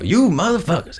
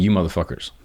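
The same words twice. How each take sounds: First: It is said with exaggerated comic delivery. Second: It is said flatly, with no comic flair.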